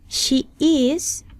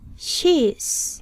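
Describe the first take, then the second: First: Both words are said fully as two syllables. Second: The words are joined into one short syllable. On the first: "de forma no contraída" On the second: "luego contraeremos"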